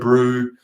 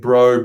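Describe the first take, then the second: First: The vowel sounds like 'oo'. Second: The vowel sounds like 'oh'. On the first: "in South Africa they say brew" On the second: "in New Zealand they say bro a lot"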